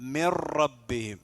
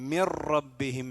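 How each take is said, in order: Both takes have the same delivery.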